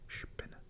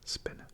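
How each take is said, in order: First: The word begins with a sh sound. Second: The word begins with a plain s sound. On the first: The speaker calls it right. "you would say sp, Spinne" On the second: The speaker calls it wrong. "instead of Spinne"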